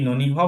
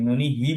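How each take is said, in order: First: "ননি হ" with a bare ha ending; wrong visarga echo. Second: "ননি হি" with a hi ending; visarga echoing i. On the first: Teacher offering students the wrong option, "ননি হ" ending in ha. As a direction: end "ননি হ" on h with inherent vowel, not i. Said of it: "ননি হ বলবো নাকি ননি হি". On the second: Teacher offering students the right option, "ননি হি" ending in hi. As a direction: repeat the i after h in "ননি হি". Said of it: "নাকি ননি হি বলবো". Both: Shown as a demonstration.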